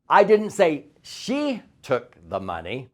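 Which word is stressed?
say. The stress falls on the word say.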